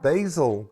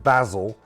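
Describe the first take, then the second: First: It is said with an American pronunciation. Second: It is said with a British pronunciation.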